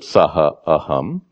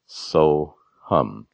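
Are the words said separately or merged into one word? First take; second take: separately; merged. First: Two separate words are said, each in full. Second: The words are merged into one short word. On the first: The speaker calls it wrong. "You don't pronounce it saha aham" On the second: The speaker calls it right. "Due to grammatical rules, you pronounce it soham"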